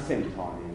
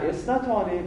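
First: سنتانه said short as "sentane", without the opening "es"; the Bani Tamim way of saying سنتانه; Bani Tamim pronunciation. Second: اثنتانه said in full as "esnatane", the Hijazi form; the Hijazi way of saying اثنتانه; Hijazi pronunciation. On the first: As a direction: give سنتانه clipped to "sentane", the Tamimi form, much softer. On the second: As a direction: give اثنتانه with its opening "esna" clearly sounded. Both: Shown as a demonstration.

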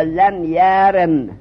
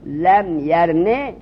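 First: Slow لم یرم with the میم closed and silent at the end; pausing on sukun. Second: Slow لم یرمه ending on a voiced vowel after میم; pausing on the vowel. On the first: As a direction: draw out لم یرم and stop dead on the میم. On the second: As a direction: draw out لم یرمه and stop on the vowel. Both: Shown as a demonstration. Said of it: "به همین حرکت میم وقف کنیم".

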